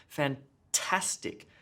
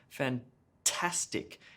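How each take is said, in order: Both takes have the same delivery.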